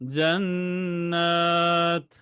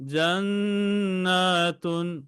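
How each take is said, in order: First: The word ends abruptly on a bare t. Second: The word ends with a full -tun syllable. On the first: The reading stops on this word. "তাতে সাকিন দিয়ে ওয়াকফ করে ফেলবেন" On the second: The reading continues without stopping. "ওয়াকফ না করলে হবে জান্নাতুন"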